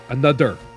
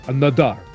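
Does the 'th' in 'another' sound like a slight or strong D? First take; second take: strong; strong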